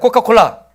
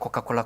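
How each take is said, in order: First: It is said once at an ordinary pace. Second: It is said quickly, repeated in rapid succession. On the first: "따라해 보세요" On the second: "그거를 빠르게 한번 해봐요. 빠르게"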